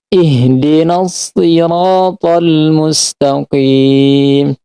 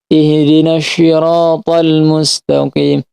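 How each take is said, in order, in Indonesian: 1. Kata sirata diawali dengan bunyi s. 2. Kata sirata diawali dengan bunyi sy. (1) "cara baca si yang benar" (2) "Dia baca si itu seakan-akan seperti huruf sya"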